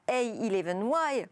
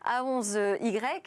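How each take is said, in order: First: The letters and number are read in English. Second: The letters and number are read in French. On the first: The speaker calls it right. "c'est une abréviation anglaise, donc j'aurais dû dire" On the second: The speaker calls it wrong. "je le prononce à la française"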